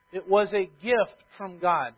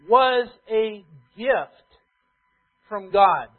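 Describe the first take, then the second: First: Said in the usual way. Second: Was a gift from God, very slow, each word spaced; slow weighty emphasis. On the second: Acted. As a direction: hammer each word out slowly. Preacher drives home key phrase.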